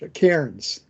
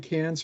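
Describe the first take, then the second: First: The r sound is pronounced in the word. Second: The r sound is dropped from the word. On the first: The speaker calls it wrong. "Cairns is the is the way you'd pronounce that" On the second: The speaker calls it right. "you wouldn't pronounce the terminal R with an Australian accent"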